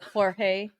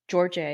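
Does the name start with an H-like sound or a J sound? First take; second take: H-like sound; J sound. First: The name starts with a breathy H-like sound. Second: The name starts with an English J sound. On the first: The speaker calls it right. "J in Spanish is pronounced right, like like Jorge" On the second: The speaker calls it wrong. "You wouldn't say George"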